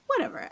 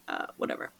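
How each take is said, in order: First: Whatever, jumped up much higher in a squeak; squeaky whatever. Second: Whatever, breathed out with no voice; under-breath whatever. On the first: Mom laughing off her C-section, squeaky high whatever. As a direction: toss it off in a high mock squeal. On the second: Mom shrugging off her labor story, whispered whatever. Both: Real, not acted.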